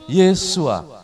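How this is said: The final s is dropped, ending in a vowel.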